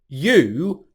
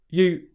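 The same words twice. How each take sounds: First: The oo vowel is long. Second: The oo vowel is short. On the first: "normal pronunciation" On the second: "the long oo vowel sound loses its length"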